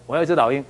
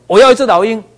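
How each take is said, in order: First: Said in the usual way. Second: Loud, high insistent demand. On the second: Retold or imitated. Hotel guest demands an eagle at the counter, loud and insistent.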